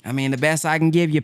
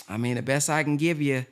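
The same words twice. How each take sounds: First: Fast, full-voiced pawnbroker patter; quick salesman imitation; brisk mock pawnbroker. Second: Softer, hushed take on the pawnbroker line; a hushed imitation of the pawnbroker; softer mock pawnbroker. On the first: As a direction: rattle it off like a dealer closing. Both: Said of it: "They say".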